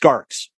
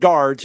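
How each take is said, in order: First: The word ends with a 'ks' sound. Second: The word ends with a 'dz' sound. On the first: The speaker calls it right. "it's garks" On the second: The speaker calls it wrong. "They're not guards"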